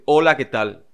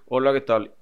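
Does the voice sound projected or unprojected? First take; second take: projected; unprojected. First: It is said with much bigger projection. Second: It is said with little projection.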